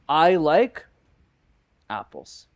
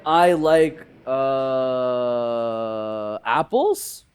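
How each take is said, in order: First: It is said smoothly with no 'uh' filler. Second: A filled 'uh' hesitation comes before 'apples'.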